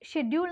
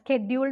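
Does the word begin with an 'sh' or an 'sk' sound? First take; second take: sh; sk. First: The word begins with an 'sh' sound. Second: The word begins with an 'sk' sound. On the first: This is the form the speaker prefers. "ഷെഡ്യൂൾ എന്ന് ഞാൻ പറയുന്നു" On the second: This is the form most people use now. "സ്കെഡ്യൂൾ എന്നാണ് ഇപ്പോൾ എല്ലാവരും പറയാറ്"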